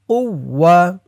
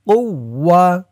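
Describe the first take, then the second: No difference in how they are said.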